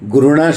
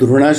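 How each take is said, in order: First: The word begins with a 'gh' sound. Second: The word begins with a 'dh' sound. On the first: The speaker calls it right. "ઘૃણા શબ્દ સાચો છે" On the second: The speaker calls it wrong. "ધૃણા શબ્દ ખોટો છે"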